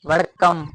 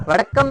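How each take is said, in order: First: वड़कम said once as a quick greeting, vuh-duh-kum; Tamil greeting demo. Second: वड़कम drawn out slowly with a held kk, vuh-duhk-kum; slow Tamil greeting. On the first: Teacher to class, showing how वड़कम sounds as a quick greeting. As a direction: say वड़कम lightly, like greeting someone in Tamil Nadu. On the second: Teacher to class, repeating वड़कम slowly for clarity. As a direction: stretch वड़कम so the class catches each sound. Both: Shown as a demonstration. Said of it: "वड़कम ही कहते हैं sir".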